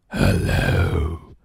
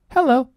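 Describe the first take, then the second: First: The voice is deep, growling and scary. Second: The voice is bright, light and cheerful. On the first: A monster is calling. "growls a monster in a deep, scary voice" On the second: A friendly girl answers the phone. "says Nelly in a bright and cheerful voice"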